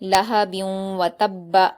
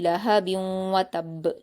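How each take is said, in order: First: The final b is doubled and followed by a vowel. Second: The final b is stopped with an echoing release. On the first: "बा पर हरकत है, जल्द पढ़ेंगे, सख्ती के साथ पढ़ेंगे" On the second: "वक्फ करेंगे तो ये जज्म में बदल जाएगा और इसको कलकला के साथ पढ़ा जाएगा"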